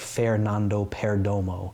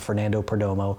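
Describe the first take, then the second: First: The name is said with Spanish-style sounds. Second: The name is said with English-style sounds. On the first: The speaker calls it right. "I'm trying to say it more like" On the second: The speaker calls it wrong.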